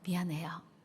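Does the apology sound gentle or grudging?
gentle. The apology sounds soft and sincere. The speaker is truly sorry. The speaker calls it right.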